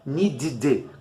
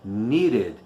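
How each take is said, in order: First: The ending has an 'ee' vowel. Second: The ending has a weak schwa vowel. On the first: The speaker calls it wrong. "também não é um i" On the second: The speaker calls it right. "Esse símbolo aqui é e"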